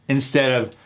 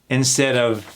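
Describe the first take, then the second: Both takes have the same delivery.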